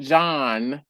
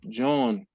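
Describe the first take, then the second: First: The vowel does not sound like yawn. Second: The vowel sounds like the one in yawn. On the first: The speaker calls it wrong. "Nope, it's not John" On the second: The speaker calls it right. "Like yawn with a J"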